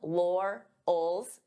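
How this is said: The word is split into two separate parts. "divide the sounds"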